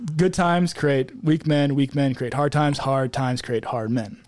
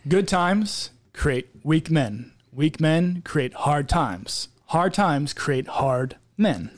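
First: It is said at normal speed. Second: It is said slowly and clearly.

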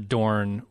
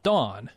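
First: The vowel is followed by an audible r. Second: The vowel has no r sound after it.

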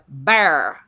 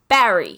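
First: It is said in a Texas accent. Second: It is said in a New York accent.

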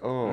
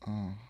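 First: It sounds like a plain, startled reaction. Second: It sounds like a weird, drawn-out moan.

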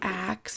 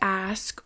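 First: The word ends with a K then S sound. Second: The word ends with an S then K sound. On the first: The speaker calls it wrong. "ax instead of ask" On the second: The speaker calls it right. "ax instead of ask"

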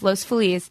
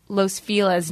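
First: Feliz is pronounced in a Spanish way. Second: Feliz is pronounced in an anglicized way. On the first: This is the original, correct form. The speaker calls it right. "but it's Los Feliz. ... Ask anyone who speaks Spanish" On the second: This is how locals commonly say it now. The speaker calls it wrong. "In LA, people say Los Feliz now"

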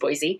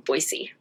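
First: The middle consonant is a Z sound. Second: The middle consonant is an S sound. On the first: This is how outsiders say it. "natively, because I'm not originally from here" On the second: This is how locals say it. "pronounced it with an S sound"

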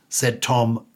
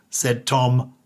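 The two takes are said the same way.

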